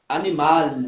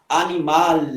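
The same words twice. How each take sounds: No difference in how they are said.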